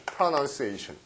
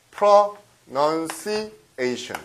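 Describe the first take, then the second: First: Said in the usual way. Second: "pronunciation" very slowly, broken into pro-nun-ci-ation; drawn-out teaching take of "pronunciation"; syllable by syllable. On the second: Shown as a demonstration. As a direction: separate each part of "pronunciation" for learners. Teacher spells out the noun form.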